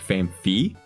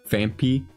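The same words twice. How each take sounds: First: The word begins with an F sound. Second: The word begins with a P sound. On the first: The speaker calls it right. "traditional way to say is, like, Phanpy. Like, like it's, uh, F instead of a P" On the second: The speaker calls it wrong. "it felt like I said it wrong"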